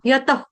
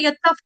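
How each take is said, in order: First: The word ends in a light breathy h. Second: The word ends in a full, strong f sound. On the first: The speaker calls it right. "सांस छोड़ते हुए यतह, इस तरह से" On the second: The speaker calls it wrong. "ऐसे नहीं बोलना है, पूरा पूरा उच्चारण नहीं"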